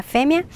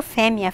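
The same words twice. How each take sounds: First: Fêmea with an open stressed é; open vowel. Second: Fêmea with a closed stressed ê; closed vowel. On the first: Teacher listing both forms, fêmea with open é. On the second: Teacher listing both forms, fêmea with closed ê. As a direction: keep the first e of fêmea closed. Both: Shown as a demonstration. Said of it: "com o som mais aberto".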